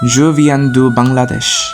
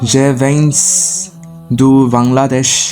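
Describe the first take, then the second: First: Bangladesh is said with French sounds. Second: Bangladesh is said with Bengali sounds. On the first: The speaker calls it right. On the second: The speaker calls it wrong.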